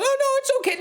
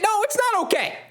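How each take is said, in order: First: Very high, strained phone voice; imitating a fan putting on a high reassuring voice; high-pitched fake reassurance. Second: High, shouted exasperated protest; angry outburst. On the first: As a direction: pretend all is fine in a squeaky-high voice. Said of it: "your high-pitched voice going on". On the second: Real, not acted. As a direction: burst out in real frustration. Fan drops the pretence, protests.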